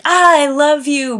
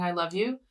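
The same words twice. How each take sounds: First: Loud, high, frantic I love you; shouted I love you, high and loud; chaotic scream. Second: Said in the usual way. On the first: Retold or imitated. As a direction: scream it out in chaos. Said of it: "before it was screaming and kind of, like, chaos". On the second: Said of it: "except you're saying".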